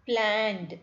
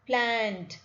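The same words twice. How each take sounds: Both takes have the same delivery.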